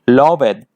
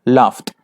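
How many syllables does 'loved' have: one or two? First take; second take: two; one. First: The ending is said as a separate syllable. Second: The ending joins the word as one syllable. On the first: The speaker calls it wrong. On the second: The speaker calls it right.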